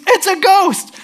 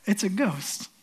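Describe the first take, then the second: First: High, loud scream of alarm; scream of fright. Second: Softly, under the breath; understated, quiet alarm; hushed dread. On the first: A fisherman spots a figure on the water, scream of fright. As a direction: shriek it as if terrified. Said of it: "Someone screams". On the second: Fishermen see someone walking on the water, hushed dread. Retells the ghost cry, hushed. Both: Acted.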